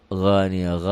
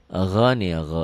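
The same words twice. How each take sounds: No difference in how they are said.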